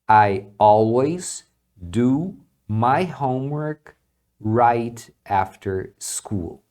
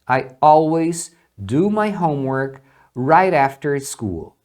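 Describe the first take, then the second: First: The t in 'right after' is clear and separate. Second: The t in 'right after' sounds like an r.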